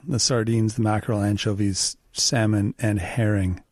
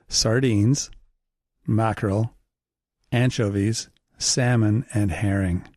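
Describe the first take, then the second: First: The list is said quickly and fluently. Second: The list is said slowly and deliberately. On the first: "I just like to roll it off my tongue" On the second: "Say it slower"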